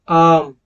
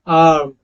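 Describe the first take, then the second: The two takes are said the same way.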